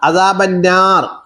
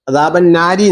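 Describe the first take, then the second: First: The word ends on a consonant with no vowel. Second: The word ends with a short final i vowel. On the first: The reciter is stopping at this word. "അദാബന്നാരി നിർത്തുമ്പോ എന്ത് ചെയ്യും? സുക്കൂൻ നിർത്തും" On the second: This is the form as it is written. "അദാബന്നാരി എന്നാണ് കിടക്കുന്നത്"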